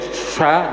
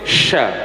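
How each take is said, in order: First: The sound is shaped mainly with the lips. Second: The sound is shaped with the middle tongue. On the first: The speaker calls it wrong. "Jadi bukan sya, bukan seperti itu" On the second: The speaker calls it right. "posisi sya-nya itu di lidah ya, lidah tengah"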